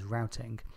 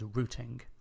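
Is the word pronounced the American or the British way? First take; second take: American; British. First: The word is given its American pronunciation. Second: The word is given its British pronunciation. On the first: "Americans pronounce that word as routing" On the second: "I'm British ... I'll be pronouncing it as routing"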